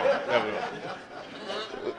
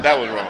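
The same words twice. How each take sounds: First: Slow whispered aside; whispered repeat. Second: Said in the usual way. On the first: Shown as a demonstration. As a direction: breathe it out slowly as a whisper.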